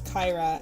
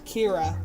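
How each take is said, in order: First: The first syllable does not sound like 'keer'. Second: The first syllable sounds like 'keer'. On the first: The speaker calls it right. "So I know it's Kyra, and I've literally never mispronounced it since" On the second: The speaker calls it wrong. "that's how we would pronounce it in, uh, in the States. Like K I R is always like Kier"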